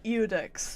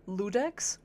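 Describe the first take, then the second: First: The word begins with a vowel sound. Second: The word begins with an L sound. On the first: The speaker calls it right. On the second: The speaker calls it wrong.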